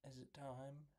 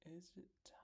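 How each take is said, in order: First: Soft, voiced question to oneself; hushed but not whispered; quiet musing. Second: Very soft, teasing whisper; breath-only hushed question. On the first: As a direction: ask it under your breath, still voiced. Asking himself before the recap. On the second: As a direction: whisper it as if checking secretly. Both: Real, not acted.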